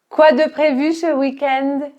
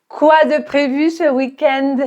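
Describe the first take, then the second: The two takes are said the same way.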